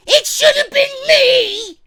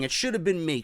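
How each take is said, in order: First: Much higher, loud, slow mock sobbing shout; crying wrestler. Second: Said in the usual way. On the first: Fan mocks Dolph Ziggler as a crybaby, wailing shout. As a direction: wail it like a crybaby throwing a tantrum. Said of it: "Crybaby bitch". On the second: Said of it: "This is the new role".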